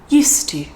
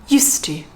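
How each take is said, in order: Both takes have the same delivery.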